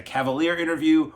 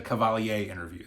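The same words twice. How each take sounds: First: "Cavalier" as English cav-uh-LEER; English pronunciation. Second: "Cavalier" as French ka-val-YAY; French pronunciation. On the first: Vlogger unsure of the name, English pronunciation of "Cavalier". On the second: Vlogger unsure of the name, French pronunciation of "Cavalier". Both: Shown as a demonstration. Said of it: "this is where I get thrown".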